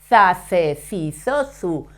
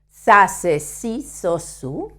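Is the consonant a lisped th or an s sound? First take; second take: th sound; s sound. First: The consonant is a lisped th sound. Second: The consonant is a strong s sound.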